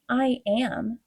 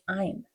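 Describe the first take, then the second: First: It is said as two full words. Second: It is contracted into one syllable.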